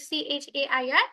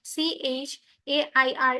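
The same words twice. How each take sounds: First: "সি এইচ এ আই আর" in one unbroken run; all letters of "সি এইচ এ আই আর" run together without a break; direct spelling. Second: CH, pause, then AIR letters; "সি এইচ" and "এ আই আর" as two separate chunks; split spelling. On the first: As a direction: spell "সি এইচ এ আই আর" straight through. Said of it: "আমরা direct বানান করে যাই". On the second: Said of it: "এরকম করে বলি না". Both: Shown as a demonstration.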